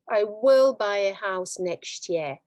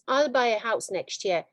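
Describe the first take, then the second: First: 'Will' is said in full and stressed. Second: 'Will' is contracted and unstressed.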